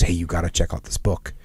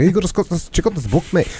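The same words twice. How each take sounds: First: Low, soft mumbled aside; mumbling buddy. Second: Higher, lightly put-on friend's voice; a hint of a Scottish buddy, not a full accent; imitating Colin. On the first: Retold or imitated. Retelling a friend's book tip, low soft mumble. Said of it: "Plus, he's a mumbler". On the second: Retelling how his buddy pushed the book, higher light imitation. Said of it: "I won't try and do a Scottish accent".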